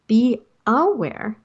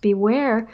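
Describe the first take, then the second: First: "be aware" said slowly, with AWARE set apart; split into two words. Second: Said in the usual way. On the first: Shown as a demonstration. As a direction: spell out "be aware" as separate, deliberate words. Corrects beware to be aware.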